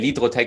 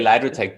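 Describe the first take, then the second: First: The name is said with German pronunciation. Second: The name is said with English pronunciation. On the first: "but in German we actually say Lidrotech" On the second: "it's just easier in English to say Lydrotech"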